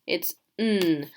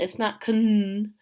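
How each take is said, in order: First: "n" as a plain n sound, no k; right way, just n; correct pronunciation. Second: Kn said with a hard k sound before the n; deliberately wrong "kn", k pronounced; wrong pronunciation. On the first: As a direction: say "n" with the k silent. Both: Shown as a demonstration. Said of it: "the K is silent".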